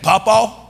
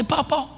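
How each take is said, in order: First: "Papa" called out louder with a rising end; drawn-out call. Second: Said in the usual way. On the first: Shown as a demonstration. Grandpa coaching grandson how to call "Papa", rising. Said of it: "You gotta say it like".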